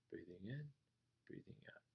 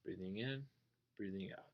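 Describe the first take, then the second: First: Breath cue trailing off into a whisper; fading to a whisper. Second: Hushed, soft meditation count; soft breathing cue. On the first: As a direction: let the words dissolve into breath. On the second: Teacher returning to the breath after a wandering thought, hushed. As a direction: ease back into the breath quietly. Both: Shown as a demonstration. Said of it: "Oh, yeah, I'm not thinking".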